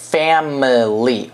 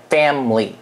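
First: "family" said slowly in two syllables, fam-ly; slow model word. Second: "family" as fam-ly, middle i dropped; two-syllable family. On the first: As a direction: drop the middle i in "family". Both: Shown as a demonstration. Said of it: "我们不念那个i".

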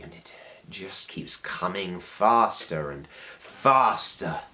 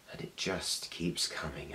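First: Building intensity. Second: Soft, measured start of a build; quietly ominous. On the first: Monologue builds toward a shout. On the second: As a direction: hold it back, soft and ominous. Monologue begins its build. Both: Acted.

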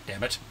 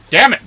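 First: Said in the usual way. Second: Sudden loud, high outburst; frustrated shout. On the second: Real, not acted. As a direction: burst out in gamer frustration. Loses checkpoint, shouted repeat.

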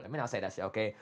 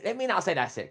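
First: Restraining himself. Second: Heated outburst. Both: Real, not acted. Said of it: "Let me calm down".

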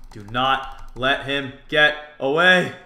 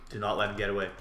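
First: Slow, louder, each word separate; emphatic repeat. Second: Lower, softer resolve; low self-urging. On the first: Player coaching himself in the chase, slow and emphatic. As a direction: punch out "not", "get", "away" slowly. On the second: Player coaching himself in the chase, low and quiet. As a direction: say it low to yourself. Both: Real, not acted.

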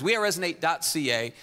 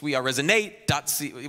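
First: "We" hit first and strongest, then falling; second try with the weight moved to "We"; stress on we. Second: Weight on "resonate", the rest light; stress on resonate. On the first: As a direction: start strong on "We" in "We are resonate dot C A". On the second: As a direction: lean into "resonate" in "We are resonate dot C A". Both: Shown as a demonstration. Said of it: "where do you put the emphasis?".

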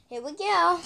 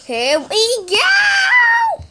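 First: Said in the usual way. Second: "Here we go" shouted high, slow and stretched; excited shout. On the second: Real, not acted. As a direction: yell it out as the ride launches. Launching, shouting with joy.

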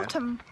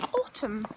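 First: Said in the usual way. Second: "Autumn" with a British open aw vowel; British accent. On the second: Retold or imitated. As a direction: say "Autumn" like a Brit, aw-tum. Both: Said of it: "That sounded kind of British when you said it".

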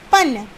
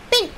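First: पन said as pan; पन, a plain pa; without the i sound. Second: पिन said as pin, short i; पि in पिन clearly. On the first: (पन बिना मात्रा के) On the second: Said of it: "पा पे छोटी की मात्रा पी". (पिन छोटी ई के साथ) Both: Shown as a demonstration.

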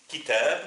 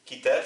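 First: Kitab said louder with a rising tune; teacher stressing Kitab; Arabic word kitab. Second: Said in the usual way. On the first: Shown as a demonstration. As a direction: present Kitab to the learners. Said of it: "Kitab, un livre". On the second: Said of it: "Kitab, c'est un livre".

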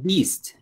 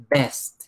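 First: "beast" with an ee vowel, pitched higher; long-vowel contrast. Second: "Best" with a short e, falling; correct word repeated. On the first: Teacher warning learners of a confusion, "beast" with ee. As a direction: set "beast" apart with a clear ee. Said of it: "No confundas con". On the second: Teacher confirming the word to learners, "Best" with short e. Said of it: "No, no es". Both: Shown as a demonstration.

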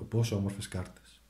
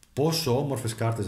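First: Softer, fond repeat; gentle awe at the cards; softer admiring. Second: Delighted at the cards; Πόσο lifted with admiration; admiring. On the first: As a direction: murmur it fondly. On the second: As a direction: show them off. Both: Real, not acted. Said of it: "κοιτάξτε εδώ".

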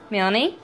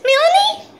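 First: Said in the usual way. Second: Very high, loud squeal of the name. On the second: Real, not acted. Baby talk, squeaky high.

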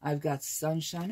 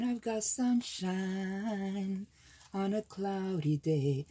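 First: Said in the usual way. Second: Sung, slow singsong, a bit higher; sung lightly. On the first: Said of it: "sung repeat". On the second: Real, not acted. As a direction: sing the phrase playfully off the page. Sings pad text.

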